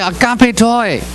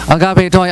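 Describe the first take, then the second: First: It is said at the highest pitch. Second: It is said at a somewhat low pitch. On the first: "越讲声调越高" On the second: "越讲声调越高"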